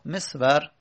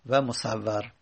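First: مصور said as mesvar. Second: مصور said as musaevar, lower and softer; musawar. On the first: Teacher repeating the first reading. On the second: Teacher repeating the second reading. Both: Shown as a demonstration.

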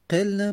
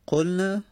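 First: قلنا said as "qilnā" with i after the q; قلنا with a front first vowel, "qil-nā"; passive voice form. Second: قلنا said as "qulnā" with u after the q; قلنا with a rounded first vowel, "qul-nā"; active voice form. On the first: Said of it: "مجهول شد". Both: Shown as a demonstration.

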